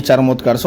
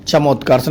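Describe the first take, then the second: First: "चरमोत्कर्ष" said with r, char-motkarsh; the correct "चरमोत्कर्ष" with r; correct form. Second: "चमोत्कर्ष" said without r, cha-motkarsh; the incorrect "चमोत्कर्ष", no r; wrong form. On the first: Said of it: "चरमोत्कर्ष होता है". (सही रूप "चरमोत्कर्ष") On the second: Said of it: "चमोत्कर्ष नहीं". (गलत रूप "चमोत्कर्ष") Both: Shown as a demonstration.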